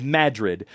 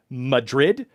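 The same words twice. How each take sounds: First: "Madrid" as MAD-rid, first syllable stressed; "Madrid" stressed at the start, falling; series pronunciation. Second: "Madrid" like the city, stress on second syllable; "Madrid" with a reduced first vowel; spelling pronunciation. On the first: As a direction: say "Madrid" with a full flat A up front. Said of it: "it's pronounced The Land of Madrid". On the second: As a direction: say "Madrid" as muh-DRID, slow and rising. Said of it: "It's spelt Madrid". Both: Shown as a demonstration.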